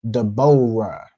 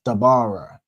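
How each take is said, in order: First: The middle vowel is an O sound. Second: The middle vowel is an A sound. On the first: This is how others pronounce it. The speaker calls it wrong. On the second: This is the original, shortened form. The speaker calls it right. "where it said like all shortened, just Dabara"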